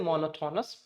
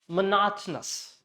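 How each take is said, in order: First: The unstressed vowels are pronounced fully. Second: The unstressed vowels are reduced to schwa. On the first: The speaker calls it wrong. "Don't say monotonous" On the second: The speaker calls it right. "leave out this O, it will convert into schwa"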